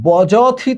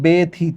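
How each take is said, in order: First: A 'j' sound follows the first consonant. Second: An 'e' sound follows the first consonant. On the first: The speaker calls it wrong. "বজথিত না হয়ে" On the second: The speaker calls it right. "হচ্ছে বেথিত"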